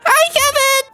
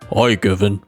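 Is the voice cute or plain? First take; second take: cute; plain. First: It is said in a cute, childlike voice. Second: It is said in a plain, uncute voice.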